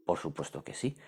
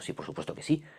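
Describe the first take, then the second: First: Lower, softer echo of the answer; quiet repeat. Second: High, emphatic stress on sí; emphatic yes. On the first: Teacher to class, repeating the answer softly. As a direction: settle the point quietly. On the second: Teacher to class, insisting with emphatic high yes. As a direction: punch the sí like it's obvious. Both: Shown as a demonstration.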